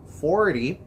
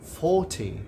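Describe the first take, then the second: First: American accent, with a soft t and strong r. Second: British accent, with a muffled r and crisp t. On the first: "A palavra quarenta no inglês americano" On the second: "no britânico"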